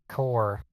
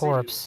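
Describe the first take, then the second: First: The word ends without a 'ps' sound. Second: The word ends with a 'ps' sound. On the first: The speaker calls it right. "You don't pronounce the P and the S" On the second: The speaker calls it wrong. "it's not corpse"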